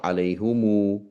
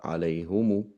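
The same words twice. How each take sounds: First: عليهم stressed as alayhumu, the rejected form; rejected reading alayhumu; wrong version. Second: عليهم said as alayhumu, the accepted form; accepted reading alayhumu; right version. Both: Shown as a demonstration. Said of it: "not عليهم، but عليهم".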